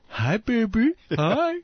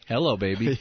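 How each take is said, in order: First: It is said in a cooing baby-talk voice. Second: It is said in a normal adult voice.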